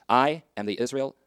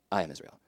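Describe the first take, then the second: First: "I am the Israel" drawn out slowly, rising at the end; slow, weighty "I am the Israel" with a rising finish; slow stress on the I am. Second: Said in the usual way. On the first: Shown as a demonstration. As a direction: lean slowly on "I am the Israel", lifting the last word. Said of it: "slow emphatic repeated declaration". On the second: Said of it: "emphatic repeated declaration".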